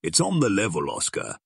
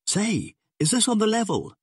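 First: Serious, steady tough-guy reassurance; sober assurance. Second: Very high, alarmed question; startled, anxious high voice; badly rattled. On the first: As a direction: confirm it gravely, no panic. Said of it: "nodded Nick Schenk soberly". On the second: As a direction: ask in shocked disbelief, pitch leaping up. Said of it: "he breathed, badly rattled for once". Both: A narrator's reading.

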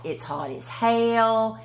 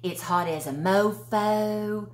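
First: Slow "It's hot as hell." with a long stretched "hell"; lazy Southern drawl on "hell"; drawn-out Southern phrase. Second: Slow "It's hot as a mofo." leaning on "mofo"; slow drawl on "mofo"; drawn-out Southern phrase. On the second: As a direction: stretch "mofo" out lazily. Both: Shown as a demonstration. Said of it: "ways of letting you know that it's hot".

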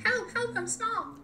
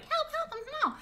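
First: Squeaky high little cry for help; a tiny creature calling for help; tiny voice sound effect. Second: Even higher squeaky cry for help; pitched-up tiny voice. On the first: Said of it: "I made another sound effect". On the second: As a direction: push the tiny voice higher still. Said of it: "pitch my voice up". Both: Pretend.

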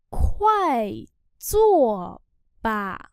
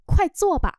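First: Long syllables with pauses between; slow model reading. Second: Said in the usual way. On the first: Shown as a demonstration. Teacher modelling "do it quickly" for learners, slowly. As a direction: sound it out syllable by syllable.

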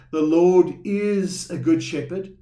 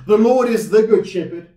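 First: The Lord is a good shepherd, said slowly, with the weight on Lord and a light a; slow, with a light indefinite a; stress on a. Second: The Lord is THE good shepherd, with THE punched and louder; stress on THE. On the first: Pastor contrasting wording for the congregation, lightly stressing a. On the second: Pastor contrasting wording for the congregation, punching THE. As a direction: hit THE hard, loud and higher. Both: Shown as a demonstration. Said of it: "there's a big difference between saying".

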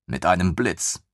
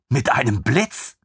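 First: Said in the usual way. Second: Higher, eager disbelief; lieutenant echoing in delight; amazed question. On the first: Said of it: "narrator confirms flatly". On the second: Acted. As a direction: repeat it in wide-eyed wonder. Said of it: "lieutenant repeats, amazed".

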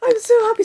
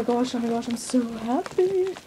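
First: High, bright gush of joy; high and thrilled, telling viewers about the trade; excited. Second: Hushed. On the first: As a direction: say it as if you can't contain it. Thrilled before opening the trade. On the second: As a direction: breathe it out in awe. Hushed awe opening the package. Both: Real, not acted.

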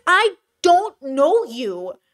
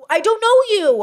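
First: Slow, drawn-out, stunned disbelief. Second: Higher, louder, exasperated cry on "know"; exasperated outburst. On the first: Creator stunned by a near-stranger's demands, slow disbelief. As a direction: spell it out slowly, as if to a stranger. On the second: Creator venting at a pushy near-stranger, loud exasperation. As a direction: throw up your hands and hit "know". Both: Acted.

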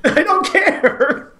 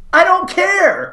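First: Slow laughing repeat; laughing deadpan. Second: Slow, deadpan drawl; flat movie quote. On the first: Repeating the Tommy Lee Jones line to his friend, laughing. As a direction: drag the words out through a laugh. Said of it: "Tommy Lee Jones says". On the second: Quoting Tommy Lee Jones to his friend, slow deadpan. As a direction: hang on every word, slow and flat. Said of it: "to which Tommy Lee Jones says". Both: Retold or imitated.

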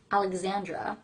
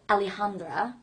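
First: Alexandra with a ks-z sound in the middle; English pronunciation. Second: Alejandra with the j as an h sound; Spanish pronunciation. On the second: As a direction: say Alejandra the Spanish way, breathy h in the middle. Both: Shown as a demonstration. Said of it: "doing the right accent for the right names".

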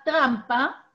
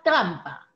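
First: "trampa" con la tr clara al inicio; pronunciar la tr. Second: Said in the usual way. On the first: Shown as a demonstration. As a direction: marca bien la tr de "trampa". ("trampa" pronunciada con tr nítida) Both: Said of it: "La palabra trampa".

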